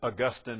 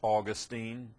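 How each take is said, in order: First: The name is pronounced in a more academic-sounding way. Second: The name is pronounced in a plain, everyday way. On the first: The speaker wants to sound more scholarly. "If you want to sound more academic, it's Augustine" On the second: The speaker wants to sound plain and ordinary. "If you want to be basic, it's Augustine"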